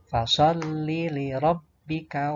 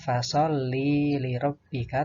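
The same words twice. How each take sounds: First: The li syllable is short. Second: The li syllable is drawn out. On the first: The speaker calls it right. "li-nya ini pendek, kemudian bertasdid, jadi bunyinya ditekan dan tidak ditahan" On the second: The speaker calls it wrong.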